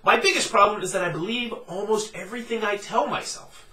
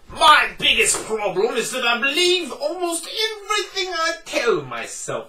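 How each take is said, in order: First: It is read in the speaker's regular voice. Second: It is read in a put-on Scottish accent. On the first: "I'm going to read my first quotation in my regular voice" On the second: "So I have to get Scottish"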